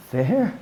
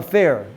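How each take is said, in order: First: "Fair?" with a sceptical rise; mock the complaint "Fair?" rising; scoffing question. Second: Said in the usual way. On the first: Shown as a demonstration. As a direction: echo "Fair?" as if the idea is absurd. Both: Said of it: "Where does it say the word".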